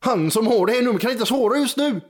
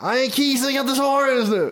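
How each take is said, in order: First: Put-on high, sing-song Gothenburg accent; Gothenburg voicemail voice. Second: Put-on high-pitched Södermalm slang accent; Söder Stockholm voicemail. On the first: Phone answering message to a caller, Gothenburg accent. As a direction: play a recorded message in broad Gothenburg dialect. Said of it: "varför det pratar på göteborgska". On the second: Voicemail for someone in Söder, Stockholm accent. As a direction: play an answering message in mock Söder dialect. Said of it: "om man ringer till någon i söder".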